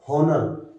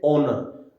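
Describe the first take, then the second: First: "हॉनर" with an audible h at the start; wrong, h sounded. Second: "ऑनर" starting straight on the vowel, no h; silent h. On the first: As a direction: mispronounce honour as "हॉनर", sounding the h. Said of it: "हम इसको हावर नहीं बोलेंगे". ("हॉनर", शुरू का ह बोलकर) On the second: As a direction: say "ऑनर" with the h dropped. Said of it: "एच is silent". ("ऑनर", ह के बिना स्वर से शुरू) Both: Shown as a demonstration.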